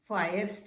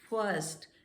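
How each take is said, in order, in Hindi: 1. स्वर एक लंबी 'eye' ध्वनि है। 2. स्वर एक मध्य 'er' ध्वनि है। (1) "फायर्स्ट नहीं है" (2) "छोटे आ की"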